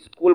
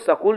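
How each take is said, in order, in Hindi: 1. यह s से पहले 'ee' ध्वनि से शुरू होता है। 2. यह सीधे s ध्वनि से शुरू होता है। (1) "स्कूल बोलते हैं" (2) "इसको स्कूल नहीं बोलते"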